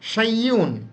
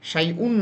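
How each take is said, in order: First: The ending is 'yun' with a 'y' sound. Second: The ending is a plain 'un' without 'y'. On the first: The speaker calls it right. "ইউন দিয়ে উচ্চারণ করবেন" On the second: The speaker calls it wrong. "না"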